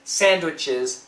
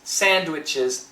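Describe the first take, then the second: First: The D is pronounced clearly. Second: The same.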